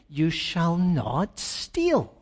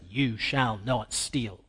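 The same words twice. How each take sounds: First: It is said as a reassuring promise. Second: It is said as a stern command.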